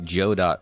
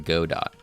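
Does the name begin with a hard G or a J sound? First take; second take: J sound; G sound. First: The name begins with a J sound. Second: The name begins with a hard G sound. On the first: The speaker calls it right. "Joe Dot sounds fun" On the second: The speaker calls it wrong. "Go Dot to me sounds awful"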